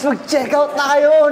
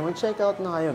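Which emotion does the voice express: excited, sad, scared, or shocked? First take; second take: excited; sad. First: The voice sounds excited and upbeat. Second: The voice sounds sad and regretful. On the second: "nalulungkot na parang mariregret nyo yan pag hindi"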